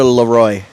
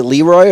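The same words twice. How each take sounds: First: Leroy said as luh-ROY; Leroy leaning on the second syllable; alternative pronunciation, luh-ROY. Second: Leroy said as LEE-roy; Leroy opening on a clear LEE; first pronunciation, LEE-roy. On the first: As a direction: say Leroy with a weak first syllable and stressed ROY. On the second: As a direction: say Leroy with a long ee in the first syllable. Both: Shown as a demonstration. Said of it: "Is it Leroy or Leroy?".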